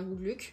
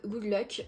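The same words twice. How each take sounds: First: Luck said as the French name Luc, with a French u; "Good Luck" corrected so Luck sounds like the French name Luc; punning on the name Luc. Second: Luck said the English way, like "lock"; "Good Luck" with Luck as the English word, not the name Luc. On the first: Correcting the title to match the hero Luc, says Luc the French way. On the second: Reading the book title, says Luck the English way. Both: Shown as a demonstration. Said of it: "vu que le personnage s'appelle Luc".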